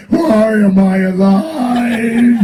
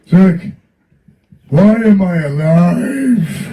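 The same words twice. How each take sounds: First: Higher, louder, slow half-sung [name] with laughter; slow sing-song [name], higher and louder; hammed-up [name]. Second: Higher, louder, slow mock [name] with a laugh; slow [name] impression, higher and louder; imitating [name]. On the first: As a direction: croon it out slowly as an exaggerated [name]. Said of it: "He goes". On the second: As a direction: stretch it out like a deadpan [name], breaking into laughter. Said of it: "he looked at me and he goes".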